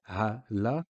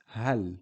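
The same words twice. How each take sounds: First: "ha, la" as two separate syllables; full la syllable. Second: "hal" as one syllable, no a after L; stop on the L. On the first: Teacher showing what sukoon is not, full vowel. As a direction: split "ha, la", giving the L its own a. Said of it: "It's not a la". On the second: Teacher correcting la to half a sound, stopped L. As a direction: shut "hal" off on the L. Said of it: "It's hal". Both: Shown as a demonstration.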